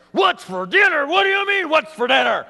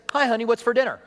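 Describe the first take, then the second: First: Higher, louder, exasperated retort; irritated snap. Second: Said in the usual way. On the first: Acted. Wife snaps back at husband asking about dinner, louder and higher. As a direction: fire the question back at him, annoyed.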